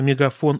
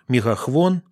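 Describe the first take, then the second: First: The third syllable starts with an f sound. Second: The third syllable starts with a khv sound. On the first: This is the standard form. "вместо мегафон" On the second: This is the local dialect form. "мегахвон вместо мегафон"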